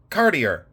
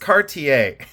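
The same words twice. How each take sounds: First: It is pronounced the local Ohio way. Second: It is pronounced the standard way. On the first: The speaker calls it wrong. "in Ohio, we say" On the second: The speaker calls it right. "No, it's Cartier"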